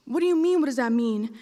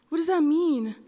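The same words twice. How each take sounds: First: Incredulous caller. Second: Put-on confused child. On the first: Retold or imitated. Caller throws child's question back. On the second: Confused child asks the caller.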